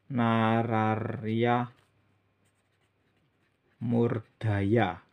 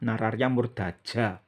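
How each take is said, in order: First: The name is said with a y sound. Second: The name is said with a j sound. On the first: The speaker calls it wrong. "Kalau dibaca ya ya nggak benar" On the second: The speaker calls it right. "Aksara kawi ja ya dibaca ja"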